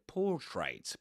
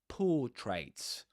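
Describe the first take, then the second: First: The R in the first syllable is pronounced. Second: The R in the first syllable is silent. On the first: The speaker calls it wrong. "You don't say portraits" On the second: The speaker calls it right. "without pronouncing the R"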